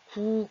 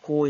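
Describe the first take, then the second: First: The ending is pronounced with an 'u' vowel. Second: The ending is pronounced with an 'o' vowel. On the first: This is the easier, casual spoken form. "구가 더 발음하기 쉬운 사람이 있어요" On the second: This is the precise, standard form. "고를 정확하게 발음하는 사람도 있지만"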